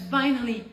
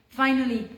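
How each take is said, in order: Both takes have the same delivery.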